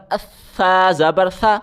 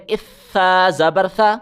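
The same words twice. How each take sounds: The two takes are said the same way.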